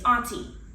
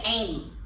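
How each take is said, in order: First: The word is said in a Detroit way. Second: The word is said in a Houston Southern way. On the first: The speaker calls it right. "It's auntie. I say auntie because we came from Detroit" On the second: The speaker calls it wrong. "in Houston they say Amy. It's not Amy"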